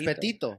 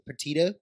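First: The name is said with a Spanish pronunciation. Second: The name is said with an English pronunciation. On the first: This is how the Spanish surname really goes. The speaker calls it right. "But it's Petito" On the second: This is how others usually say the name. The speaker calls it wrong. "the way they pronounce it is like"

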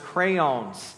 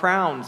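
First: The word is said with two syllables. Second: The word is squeezed into one syllable. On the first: This is how most other people say it. "but everybody else says crayons" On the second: This is the speaker's own local way. "I say what you color with are called crowns"

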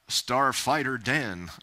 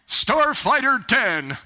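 First: It is said in her own plain voice. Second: It is said imitating how the Lord said it.

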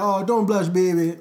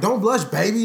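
First: It is said in a Jamaican patois accent. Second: It is said in a plain American accent.

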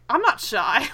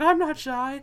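First: The phrase is said in a clear voice. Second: The phrase is mumbled quietly and shyly.

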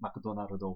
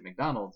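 First: It is said the Japanese katakana way. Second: It is said the English way. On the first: The speaker calls it wrong. "we don't say McDonald's when you come to America" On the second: The speaker calls it right. "so you got to say McDonald's"

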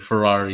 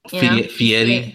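First: The name is said like 'Fer-rari'. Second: The name is said like 'Fee-eri'. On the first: The speaker calls it wrong. "Ferrari is his name" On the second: The speaker calls it right. "his name is pronounced Guy Fieri"

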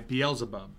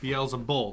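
First: The name ends with a b sound. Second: The name ends with an l sound. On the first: The speaker calls it wrong. "That's how I've always heard" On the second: The speaker calls it right. "Beelzebul, not bub"

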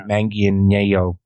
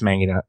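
First: The double L sounds like a Y. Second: The double L sounds like an L. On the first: "the double L might be a yes sound" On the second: "but no, I think it's Manganiello"

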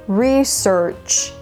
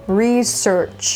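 First: The stress is on the first syllable. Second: The same.

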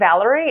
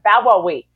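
First: The name has clear L and R sounds. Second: The L and R are replaced by W sounds. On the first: "my name" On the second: "I'm always Bawawi to small children because they can't say those sounds"

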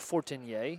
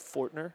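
First: The name is said with French-style pronunciation. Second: The name is said with English-style pronunciation.

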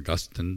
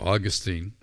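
First: The name is said the English way. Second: The name is said the Western way. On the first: "depending on your Western or English pronunciation" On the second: "depending on your Western or English pronunciation"

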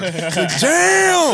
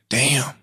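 First: It is said loudly and intensely. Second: It is said softly and mildly.

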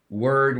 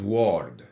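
First: The word is said with a native English vowel. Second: The word is said with a foreign spelling-based vowel.

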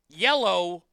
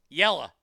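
First: The word ends in a full 'oh' sound. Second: The word ends in a reduced 'uh' sound.

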